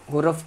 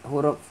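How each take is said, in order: Both takes have the same delivery.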